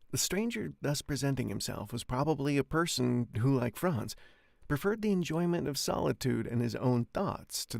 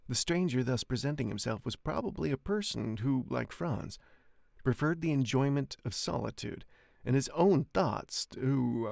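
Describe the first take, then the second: First: It is read faster and smoothly. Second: It is read slowly with halting pauses.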